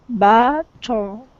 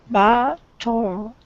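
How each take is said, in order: No difference in how they are said.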